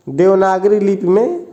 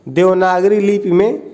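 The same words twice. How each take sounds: The two takes are said the same way.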